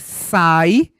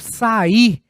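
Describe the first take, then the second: First: The i glides weakly after the a. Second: The i is as loud as the a. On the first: "o A é uma vogal, o I é uma semivogal" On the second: "note que este I tem um som tão alto quanto o som do A"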